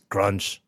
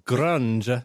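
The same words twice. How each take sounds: First: The word is said flat and plain. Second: The word has a rolled, Italian-style flourish. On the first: The name sounds unsavory. The speaker calls it wrong. "But it was just this grunge" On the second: The name sounds appealing. The speaker calls it right. "You put a little Italian on it"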